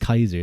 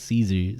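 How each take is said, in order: First: The name begins with a k sound. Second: The name begins with an s sound. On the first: The speaker calls it right. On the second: The speaker calls it wrong.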